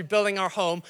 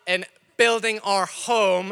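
First: Said in the usual way. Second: In building our home drawn out slowly, weight on building; slow emphasis on building. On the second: Acted. Pastor announcing the building appeal, slow stress on building. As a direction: lean slowly into the word building.

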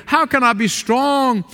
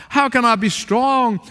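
The two takes are said the same way.

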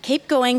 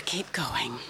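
First: Said in the usual way. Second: Hushed, breathy whisper to Jennifer. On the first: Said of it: "keep going (whispered)". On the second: Real, not acted. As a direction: whisper the prompt right into her ear.

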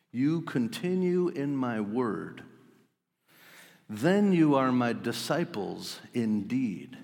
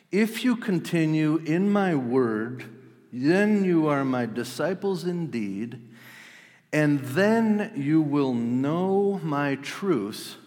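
First: Slow, measured reading of the verse; slow scripture reading. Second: Slow, higher and louder, pressing each condition; emphatic scripture reading. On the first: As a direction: lay each word down slowly. First reading of Jesus' words. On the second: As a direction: build it like a preacher's climax. Re-reading the verse with force. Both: Shown as a demonstration.

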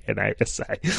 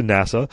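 First: "N A S A" said letter by letter; spelled-out NASA. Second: Said in the usual way. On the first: Real, not acted. Host mocks own slip over the agency, "N A S A" spelled out. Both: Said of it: "Did I say N A S A?".

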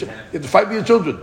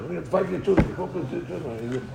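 First: Said in the usual way. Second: Put-on You have to fight for your children said slowly and softer, each word weighted; slow it down and lean on fight; slow emphatic repeat. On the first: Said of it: "repeated for emphasis". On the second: Shown as a demonstration. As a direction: drive the lesson home slowly. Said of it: "repeated slowly for emphasis".

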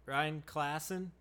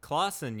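First: "Klassen" said with a flat a, as in class; wrong pronunciation. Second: "Klassen" with a broad ah, KLAHS-en; corrected pronunciation. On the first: Asking a stranger, he says "Klassen" with the a of cat. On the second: Repeating the name he was just taught, he says "Klassen" with the ah of father. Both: Acted. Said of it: "so I've been pronouncing it wrong".

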